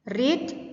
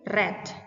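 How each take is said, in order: First: It is said as the present-tense pronunciation. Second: It is said as the past-tense pronunciation. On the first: The action happens in the present. "Kalau kata kerja pertamanya read" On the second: The action is already finished. "kata kerja keduanya bacanya read"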